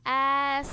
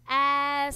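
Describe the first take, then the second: No difference in how they are said.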